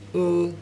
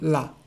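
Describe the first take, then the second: First: The L sound is dark and hollow. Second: The L sound is clear and light. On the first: The speaker calls it right. "it will always be a dark L, which is L" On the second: The speaker calls it wrong. "not La"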